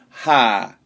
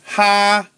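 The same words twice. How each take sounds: First: It is said with the fourth tone. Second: It is said with the first tone. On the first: "fourth tone" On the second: "first tone"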